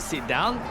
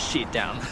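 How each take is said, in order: First: The first word starts with an s sound. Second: The first word starts with an sh sound. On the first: The speaker calls it right. "the teacher asks them to sit down" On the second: The speaker calls it wrong. "it becomes shit down"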